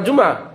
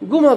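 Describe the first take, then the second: First: It is said with a standard Arabic j sound. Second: It is said with an Egyptian hard g sound.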